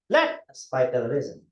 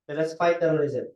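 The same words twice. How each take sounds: First: The word let carries the strongest stress. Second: No single word is given special stress. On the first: The speaker calls it right. "I'm going to put it with let" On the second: The speaker calls it wrong. "It doesn't give you much impact"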